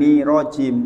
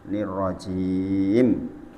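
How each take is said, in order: First: The r sound is short and single. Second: The r sound is held and doubled. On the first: The speaker calls it wrong. "bukan nirojim" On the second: The speaker calls it right. "Ada tasdid lagi"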